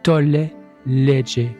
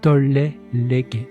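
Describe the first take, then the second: First: It uses a traditional Latin pronunciation. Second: It uses a more modern Latin pronunciation.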